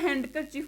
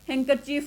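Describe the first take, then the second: First: The d sound is pronounced in the middle. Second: The d sound is left out completely. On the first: The speaker calls it wrong. "हैंड का हम पूरा हैंडकरचीफ बोलते हैं" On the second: The speaker calls it right. "हैंकरचीफ होता है"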